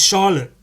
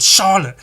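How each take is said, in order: First: Mock teacher yell. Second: Sharp, much louder, higher call of her name; teacher's yell. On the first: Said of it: "He goes". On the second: Retold or imitated. Maths teacher yelling at a chatty pupil, loud and sharp. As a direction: bark the name across the classroom. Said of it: "I think he just yelled".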